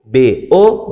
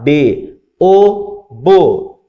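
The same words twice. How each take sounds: First: B then O, left open for the pupil; unresolved spelling prompt on O; cue to complete. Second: Teacher's chanted pattern landing on bo; resolved syllable drill. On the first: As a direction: leave O hanging after B. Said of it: "o aluno completa". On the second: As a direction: spell B, O up, then close on bo. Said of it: "Então você vai continuar". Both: Shown as a demonstration.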